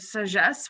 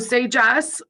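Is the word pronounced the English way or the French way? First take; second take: French; English. First: The word is said with French sounds. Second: The word is said with English sounds. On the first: "if you are French, you would probably pronounce it sagesse" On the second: "We're anglicizing it"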